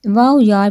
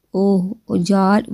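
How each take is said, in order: First: واو یار said louder with a lift of excitement; excited. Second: Said in the usual way. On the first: A narrator's reading. Friend excited about the professor, louder eager واو یار. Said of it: "وہ پرجوش ہوئی۔". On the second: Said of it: "واو یار، وہ پرجوش ہوئی".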